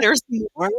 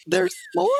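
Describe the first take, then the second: First: High, overwhelmed question; as if it is all too much; teary disbelief. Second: High, stunned little question; can't believe there is more; overwhelmed disbelief. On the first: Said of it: "I started crying". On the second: Teacher offered a private tour, high stunned disbelief. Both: Retold or imitated.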